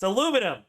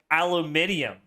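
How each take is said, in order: First: The word is said with four syllables. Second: The word is said with five syllables. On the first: This is how Americans say it. The speaker calls it right. "It's aluminum" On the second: This is how the British say it. The speaker calls it wrong. "They they say it aluminium"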